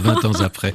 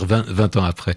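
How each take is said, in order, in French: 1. Un son t lie vingt à ans. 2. Pas de son t entre vingt et ans. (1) "Vous faites la liaison? ... J'avais jamais pensé qu'on pouvait dire 20 ans après" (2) "j'ai toujours dit 20 ans après"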